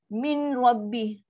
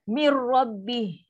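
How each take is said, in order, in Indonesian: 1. Bunyi n masih terdengar sebelum r. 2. Bunyi n menyatu penuh ke dalam r tanpa dengung sengau. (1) "ada orang baca masih dengar nun tu" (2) "Dah masuk one hundred percent"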